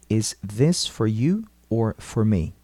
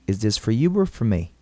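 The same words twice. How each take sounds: First: It is said slowly and carefully. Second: It is said at normal speed.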